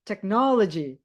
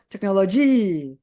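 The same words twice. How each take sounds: First: The stress is on the second syllable. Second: The stress is not on the second syllable. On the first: The speaker calls it right. "Pasti kalian ngomongnya harus technology" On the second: The speaker calls it wrong. "Atau technology"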